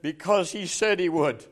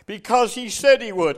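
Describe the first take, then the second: First: Said in the usual way. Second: Louder, higher preacher's declaration; emphatic repeat. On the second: Retold or imitated. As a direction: proclaim the retold answer with conviction. Answer repeated with preaching force.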